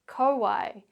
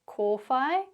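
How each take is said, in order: First: It is said with English sounds and patterns. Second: It is said with Māori sounds and vowels. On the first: "the anglicised version" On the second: "the Māori pronunciation"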